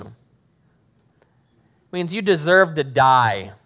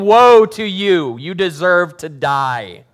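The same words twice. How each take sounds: First: Slow, heavy stress on deserve; grave emphasis. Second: Loud, slow shouted woe; mock screaming. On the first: Acted. Pastor explaining what woe means, slow and heavy. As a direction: lean hard on deserve, slowly. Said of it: "means a death sentence upon you". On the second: Jesus screaming at the Pharisees at dinner, loud. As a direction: yell it like an angry prophet.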